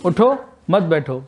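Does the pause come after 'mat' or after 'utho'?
after utho. There is a pause right after 'utho'.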